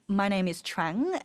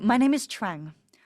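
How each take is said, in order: First: The voice rises at the end. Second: The voice falls at the end. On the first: The speaker sounds uncertain. "This is version one" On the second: The speaker sounds certain. "Versus version two"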